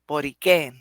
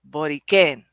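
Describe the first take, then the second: First: The stress falls on the last syllable. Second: The stress falls on the last syllable.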